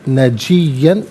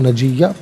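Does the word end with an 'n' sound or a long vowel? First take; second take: 'n' sound; long vowel. First: The word ends with an 'an' sound. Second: The word ends with a long 'aa' vowel. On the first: The reading continues without stopping. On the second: The reading stops at this word.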